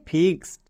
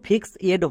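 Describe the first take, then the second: First: The ending is only a short d sound. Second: The ending is a separate extra 'ed' syllable. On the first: The speaker calls it right. "ED এর জন্য ডো মানে ফিক্সড" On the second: The speaker calls it wrong. "উচ্চারণ ফিক্স এড হবে না"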